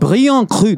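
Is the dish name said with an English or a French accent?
French. It is said with a French pronunciation.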